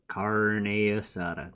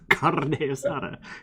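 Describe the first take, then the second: First: The R in carne is not rolled. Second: The R in carne is rolled. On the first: The speaker calls it wrong. "No, no, no, no" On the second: The speaker calls it right. "You gotta gotta roll the R"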